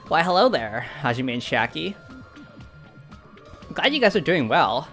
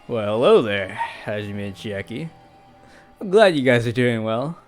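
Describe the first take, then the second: First: It is said in a nasal, nerdy voice. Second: It is said in a relaxed stoner voice.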